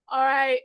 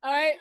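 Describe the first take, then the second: First: Projected loud call to order; loud, carrying all right. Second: Lightly voiced nagging mother; a hint of a scolding mom; shrill nagging mom. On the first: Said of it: "I'll put on my loud voice". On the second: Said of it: "now I'm putting on my mom voice". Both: Shown as a demonstration.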